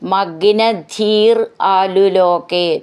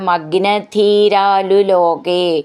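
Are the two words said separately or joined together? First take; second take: separately; joined. First: The two words are said as separate words. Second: The two words are run together as one.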